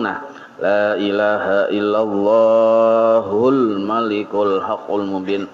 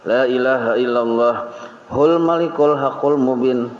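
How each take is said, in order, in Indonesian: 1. Langsung menyambung ke 'hul malikul' tanpa jeda. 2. Ada jeda sebelum 'hul malikul' yang disambung. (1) "yang mana bersambung" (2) "kalau sudah bahinak tapi gaya-gaya bersambung ... salah tuh"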